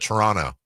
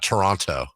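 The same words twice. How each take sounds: First: The second T sound is dropped. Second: The second T sound is pronounced. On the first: This is how locals say it. "the people that live in Toronto don't say the T in that name" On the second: This is not how locals say it. "Not Toronto"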